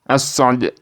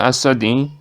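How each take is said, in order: First: The word ends on the consonant without vowel. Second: The final vowel is voiced only softly. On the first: "dibaca menjadi as-sod" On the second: "i-nya ini dibaca pelan"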